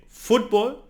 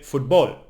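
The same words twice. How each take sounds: First: "football" stressed on FOOT; correct Spanish stress. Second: "football" with the stress moved to BALL; wrong stress demo. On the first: Teacher giving the right version, "football" stressed on FOOT. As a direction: put the weight on the first syllable of "football". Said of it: "it would be wrong to say". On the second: Teacher showing what would be wrong, "football" stressed on BALL. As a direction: hit the last syllable of "football". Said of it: "it would be wrong to say football". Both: Shown as a demonstration.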